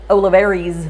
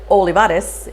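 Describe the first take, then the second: First: The name is said the usual local way. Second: The name is said the family's own way. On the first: "were used to hearing" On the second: "the way you actually say my name"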